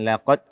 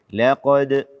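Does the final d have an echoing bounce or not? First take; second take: no bounce; bounce. First: The final d stops flat with no bounce. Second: The final d ends with an echoing bounce. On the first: The speaker calls it wrong. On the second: The speaker calls it right.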